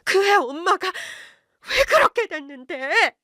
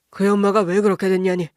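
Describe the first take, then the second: First: High, slow outburst from the wife; sudden cry. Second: Said in the usual way. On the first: A narrator's reading. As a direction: blurt it out high and drawn out, stressing 그렇게. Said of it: "갑자기 아내가 소리쳤어요".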